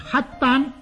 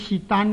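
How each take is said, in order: First: The first syllable sounds like hak. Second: The first syllable sounds like sit. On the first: The speaker calls it right. "称为黑丹" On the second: The speaker calls it wrong. "若果读做揭丹或者舌丹呢，是读错了的"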